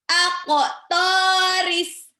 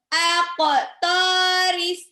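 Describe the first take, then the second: No difference in how they are said.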